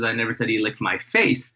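The stress falls on the word 'face'. Something other than the face got licked. "it was something else that got licked"

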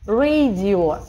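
It is said with an English pronunciation. The speaker calls it right. "слог открытый и ударный"

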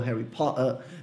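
It is said with a British accent. "em inglês britânico"

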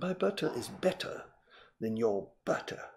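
It is spoken in a British RP accent. "But in perfect received pronunciation"

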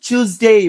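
It is said in a British accent. "চুজডে British English"

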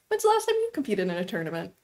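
The question sounds light and casual. The asker is simply curious. The speaker calls it right. "like a like a light light little thing"

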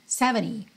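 The final T is barely pronounced. "no inglês americano, esse T final praticamente não apareceria"

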